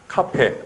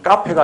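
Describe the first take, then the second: First: The first consonant is plain and aspirated. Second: The first consonant is tense and stiff. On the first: The speaker calls it right. "아니라 카페" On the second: The speaker calls it wrong. "된 소리 표기하지 않는"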